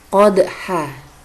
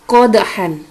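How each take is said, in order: First: The word ends on a vowel, no n. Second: The word ends with an n sound. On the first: This is how it is read when stopping at the verse end. "maka dibaca menjadi qodha" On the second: This is the written form with tanwin. "terdapat kalimat qodhan"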